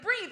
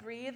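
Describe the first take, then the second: First: "Breathe?" thrown back in disbelief; "Breathe?" echoed with mock outrage; incredulous echo. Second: Soft, quiet mock meditation voice saying "Breathe."; "Breathe." said gently like a meditation app; calm app voice. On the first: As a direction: repeat "Breathe?" as a baffled question. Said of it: "And I was like". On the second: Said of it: "and it was like".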